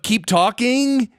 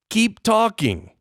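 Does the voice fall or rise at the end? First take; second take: rise; fall. First: The pitch rises at the end. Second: The pitch falls at the end.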